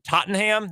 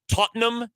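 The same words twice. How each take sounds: First: It is pronounced in an American-style way. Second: It is pronounced in a British-style way. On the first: The speaker calls it wrong. "how Americans would say it" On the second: The speaker calls it right. "you have to pronounce it kind of the same way"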